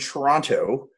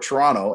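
First: Every syllable of the word is said clearly. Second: The word is clipped, with sounds dropped. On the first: A careful form that outsiders understand. "I had to, you know, make sure everyone understood me" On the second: The way the locals say it. "as we would say it"

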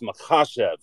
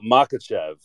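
First: The name is said in a native-like way. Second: The name is said in the American way. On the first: The speaker calls it right. "It's Makhachev" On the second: The speaker calls it wrong. "which is kind of the standard American pronunciation"

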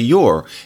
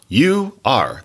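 First: The two words merge into one short syllable. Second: Both words are said fully and separately. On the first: The speaker calls it right. "You have to say you're" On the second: The speaker calls it wrong. "it's not you are. That's on the page, but you don't say that unless you're being very explicit"

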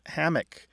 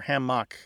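First: The stress is on the first syllable. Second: The stress is on the second syllable. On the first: "tends to have a stress on the first syllable" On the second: "tends to have a stress on the second syllable"

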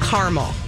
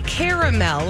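First: The word is said in a plain, everyday way. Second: The word is said in a fancy-sounding way. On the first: The speaker is being down to earth. The speaker calls it right. "We don't do fancy. We're Minnesotans" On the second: The speaker is putting on airs. The speaker calls it wrong. "it sounds like you're trying to be fancy"

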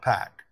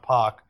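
First: The name has the American pronunciation. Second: The name has the hometown crowd's local pronunciation. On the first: "not Pac" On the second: "not Pac"

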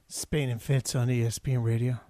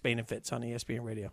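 First: It is said in a smooth R&B voice. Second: It is said in a plain speaking voice.

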